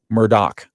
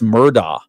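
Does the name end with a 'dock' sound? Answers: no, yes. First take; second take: yes; no. First: The name ends with a 'dock' sound. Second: The name does not end with a 'dock' sound. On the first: The speaker calls it right. "It's actually Murdoch" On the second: The speaker calls it wrong. "I got this one wrong as well"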